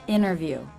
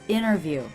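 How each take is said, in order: First: The T after the N is dropped. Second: The T after the N is dropped.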